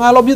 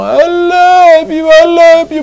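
First: Said in the usual way. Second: Sung, very high, long drawn-out declaration; sung, stretch each word high, like hammed-up worship; sung, mock church worship. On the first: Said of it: "di depan mata aja kita nggak bisa bilang". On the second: Sung, quarrelling husband declaring love to God in church, mock-fervent drawn-out. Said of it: "terus kamu ke gereja bilang".

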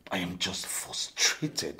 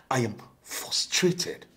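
First: Slow, lower, measured frustration; contained frustration. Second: Rising frustration. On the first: Josh explaining himself to Laura, contained slow frustration. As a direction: spell it out slowly, holding back. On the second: Josh insisting to Laura, emphatic slow frustration. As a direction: press each word out in frustration. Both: Acted.

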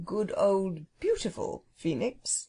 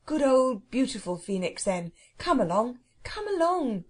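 First: Slow, shy phoenix, drawing the words out; coy, lingering little correction. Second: Put-on impatient boy, pitch jumping on the last plea; exasperated coaxing that climbs at the end. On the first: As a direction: gently correct them, bashful and unhurried. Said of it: "it corrected shyly". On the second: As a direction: urge it on impatiently. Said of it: "said Robert impatiently". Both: A narrator's reading.

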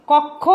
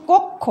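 First: কক্ষ with open ɔ, "kawk-kho"; first syllable of কক্ষ like "kawk"; as written, open vowel. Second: কক্ষ with rounded o, "kok-kho"; first syllable of কক্ষ like "kok"; as pronounced, closed o. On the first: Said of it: "আমরা লিখেছি". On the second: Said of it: "উচ্চারণ হচ্ছে". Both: Shown as a demonstration.

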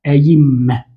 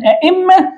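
First: "أئمة" said as ayimma, with a y glide; hamza turned to ya. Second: "أئمة" with a glottal stop, a-'imma; original two-hamza form. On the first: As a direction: soften the second hamza of "أئمة" into y. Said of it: "أن نقول فيها ماذا". ("أئمة" بقلب الهمزة الثانية ياء) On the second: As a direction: keep the second hamza hard in "أئمة". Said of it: "تقلب الثانية ياء". ("أئمة" بتحقيق الهمزتين) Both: Shown as a demonstration.

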